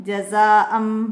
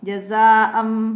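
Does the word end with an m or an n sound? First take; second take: m; m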